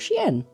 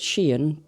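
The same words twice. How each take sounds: First: The name is pronounced in a posher-sounding way. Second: The name is pronounced in its ordinary way. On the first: The brand sounds more upmarket. "the way I say it makes it sound a little bit posher" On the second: This is how the brand is usually called. "I'm aware it's Shein"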